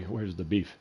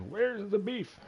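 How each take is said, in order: First: Said in the usual way. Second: Put-on much higher, thin old-lady squeak; angry old lady from the commercial. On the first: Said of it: "it's an old lady that's angry". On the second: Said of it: "it was that old lady in the commercial".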